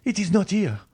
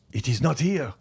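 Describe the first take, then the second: First: Much higher, frantic repeat; grieving father shrieking while digging for his son; louder, wild cry. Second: Desperate cry, pitched up; raised cry. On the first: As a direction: scream it again, losing his mind. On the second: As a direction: call out in frantic denial. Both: A narrator's reading. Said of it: "he cried".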